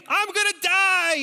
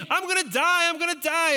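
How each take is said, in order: First: High, loud panicked scream; screaming kid. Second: High, loud repeated panic scream; screaming kid. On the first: Boy in the dark cave screaming to the leaders, high and loud. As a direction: shriek it like a terrified child. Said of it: "And so I scream". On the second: Eight-year-old in the cave still screaming, loud and high. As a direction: wail it twice like a child in the dark. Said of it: "But I'm screaming". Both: Retold or imitated.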